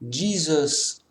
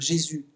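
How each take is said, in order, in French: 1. Le nom se prononce à l'anglaise. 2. Le nom se prononce à la française. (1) "en anglais on dit euh" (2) "je parle tout en anglais, et je dis euh"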